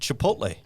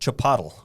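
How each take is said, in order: First: The word has its usual pronunciation. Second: The word has a deliberately altered pronunciation.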